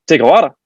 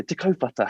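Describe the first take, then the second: First: "Te Kawara" anglicised as "take-a-wara", loud; mispronounced place name. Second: "Te Kaupata" said "te koh-fa-ta", softer and higher; proper Māori pronunciation. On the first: Barman puzzled by auntie's question, "Te Kawara" mispronounced. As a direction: say "Te Kawara" like a local mangling the Māori. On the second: Auntie answering the barman, "Te Kaupata" pronounced properly. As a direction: say "Te Kaupata" gently with Māori vowels and soft f. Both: Retold or imitated.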